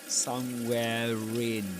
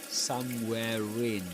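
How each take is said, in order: The two takes are said the same way.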